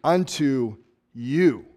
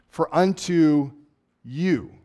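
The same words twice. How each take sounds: First: Slow, drawn-out "Unto you", weight on "you"; stress on you. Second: Slow "For unto you", leaning on "you"; a preacher singling out "you"; stress on you. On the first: Acted. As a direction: say "you" to one person, slowly. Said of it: "he turns to one and he says". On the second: Shown as a demonstration. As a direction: linger on "you". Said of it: "the third word, you".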